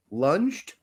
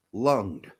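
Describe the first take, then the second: First: Said in the usual way. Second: "lunged" said as lung plus d, hard ng; "lung-d" pronunciation. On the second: Shown as a demonstration. Host comparing look-alike words, "lunged" said as "lung-d". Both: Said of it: "looks a lot like the word".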